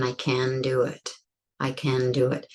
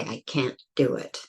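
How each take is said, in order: First: "I can do it" smooth, no stop; "can" run into "do" with no break; flowing can. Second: "I can't do it" with a held stop before do; "can't" closed off in the throat; stopped can't. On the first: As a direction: glide straight through "can". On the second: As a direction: catch the breath after "can't". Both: Shown as a demonstration. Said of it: "it's quite different than".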